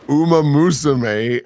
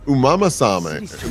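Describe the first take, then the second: First: The name is said clearly as Uma Musume. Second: The name is garbled as Umama Same. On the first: The speaker calls it right. "and he's like, "Yes, Uma Musume,"" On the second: The speaker calls it wrong. "she was like Umama Same, like like just said it wrong"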